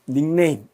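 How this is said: It is said with Korean-style even syllables. "영어권 화자는 절대로 닉네임 이렇게 발음하지 않습니다"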